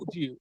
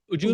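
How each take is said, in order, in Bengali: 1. দুটো শব্দ আলাদা করে বলা হয়েছে, স্পষ্ট 'd' উচ্চারণ সহ। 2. শব্দ দুটো একসাথে মিশে যায়, 'j'-এর মতো উচ্চারণ সহ। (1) "not would you" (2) "উডটাকে উজ বলেন"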